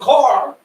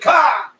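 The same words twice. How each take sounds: First: The R at the end is clearly pronounced. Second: The R at the end is dropped. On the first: "we say car. Over here, we roll the R's" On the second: "In Boston, they say car ... They don't pronounce the R"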